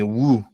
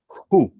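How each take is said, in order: First: It starts with a w sound and long oo. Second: It starts with an h sound and long oo. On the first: The speaker calls it wrong. "ni woo" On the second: The speaker calls it right. "pueden decir J-U"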